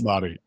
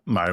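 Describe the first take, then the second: First: The R is lightly rolled. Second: The R is not rolled. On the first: The speaker calls it right. "that was perfect" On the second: The speaker calls it wrong. "I'm sure I'm already butchering the pronunciation"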